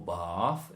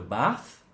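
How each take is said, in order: First: The word is said in an RP accent. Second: The word is said in a non-RP accent.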